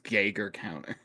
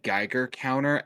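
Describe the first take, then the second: First: The first syllable sounds like 'gay'. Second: The first syllable does not sound like 'gay'. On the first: The speaker calls it wrong. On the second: The speaker calls it right.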